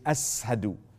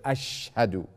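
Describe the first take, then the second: First: The consonant is pronounced as a plain s sound. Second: The consonant is pronounced as an sh sound. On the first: The speaker calls it wrong. "He would pronounce the sheen like seen" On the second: The speaker calls it right. "instead of ashhadu"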